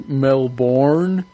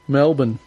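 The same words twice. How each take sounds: First: The word is said the American way. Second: The word is said the Australian way. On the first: The speaker is from America. The speaker calls it wrong. "People in America always say Melbourne because they're trying to pronounce it" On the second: The speaker sounds Australian. The speaker calls it right. "but it's just Melbourne"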